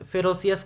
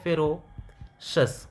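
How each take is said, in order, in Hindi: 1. अंत 'see-us' की तरह बोला जाता है। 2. अंत 'shus' की तरह बोला जाता है। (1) "जनरली फेरोसियस कह देते हैं" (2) "बट ये एक्चुअली में है फेरोशस"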